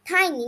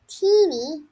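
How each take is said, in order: First: The first vowel sounds like 'eye'. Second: The first vowel sounds like 'ee'. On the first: The speaker calls it right. "It's like tiny" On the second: The speaker calls it wrong. "not teeny"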